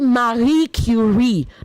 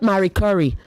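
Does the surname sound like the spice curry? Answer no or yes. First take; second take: no; yes. First: The surname does not sound like the spice curry. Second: The surname sounds like the spice curry. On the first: The speaker calls it right. "you say Marie Curie" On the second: The speaker calls it wrong. "not Marie Curie. Please, she's not a spice"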